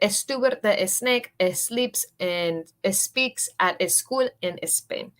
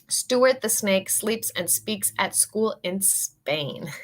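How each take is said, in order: First: An extra e vowel comes before the s sounds. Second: The s sounds start cleanly with no added vowel. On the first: The speaker calls it wrong. "No queremos decir" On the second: The speaker calls it right. "We can do a little better"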